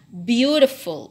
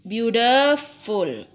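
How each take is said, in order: First: The stress is on the first syllable. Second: The stress is on a later syllable. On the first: The speaker calls it right. "Ini dibaca beautiful" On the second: The speaker calls it wrong. "bukan beautiful"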